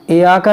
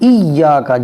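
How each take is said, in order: First: The 'y' sound is short and single. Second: The 'y' sound is held and doubled. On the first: The speaker calls it wrong. "नहीं" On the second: The speaker calls it right. "जमा के"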